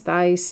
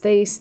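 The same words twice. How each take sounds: First: "Thaiss" with the vowel of "ice"; pronounced "thice". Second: "Thaiss" with the vowel of "face"; pronounced "thayce". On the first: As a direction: say "Thaiss" to rhyme with "ice", questioning. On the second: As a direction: say "Thaiss" to rhyme with "face", questioning. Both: Shown as a demonstration. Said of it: "Is it pronounced".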